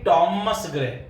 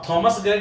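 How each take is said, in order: First: The name starts with a plain t sound. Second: The name starts with an aspirated th sound. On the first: The speaker calls it right. "टी का sound है, एच उसमें silent होता है" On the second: The speaker calls it wrong. "थ का sound English में है ही नहीं, तो आप थॉमस ग्रे नहीं बोलेंगे"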